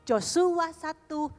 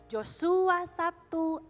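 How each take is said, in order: Both takes have the same delivery.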